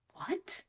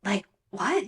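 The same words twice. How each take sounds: First: Much higher, very soft disbelieving what; a high, hushed gasp of a question; stunned what. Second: Said in the usual way. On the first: Real, not acted. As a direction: drop it out in shocked disbelief. Disbelief at Kenya's excuse.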